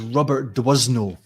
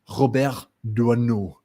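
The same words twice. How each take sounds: First: The name is said with an English accent. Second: The name is said with a French accent.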